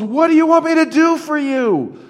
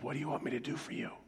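First: It is shouted loudly. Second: It is said quietly and close.

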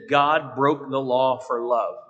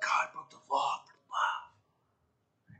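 First: It is said flatly, without much emotion. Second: It is said with dramatic, built-up emotion.

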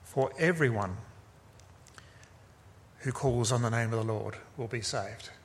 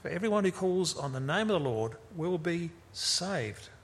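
First: The stress falls on the word everyone. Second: The stress falls on a word other than everyone. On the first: No one is excluded, whatever their background. "Paul's emphasis is on the word everyone" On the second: Being saved depends on calling on the Lord. "depends on how you emphasize it"

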